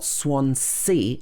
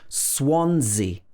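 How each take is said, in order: First: The second s is sounded as s. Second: The second s is sounded as z. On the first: The speaker calls it wrong. "It's not Swansea" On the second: The speaker calls it right. "the second S is pronounced Z"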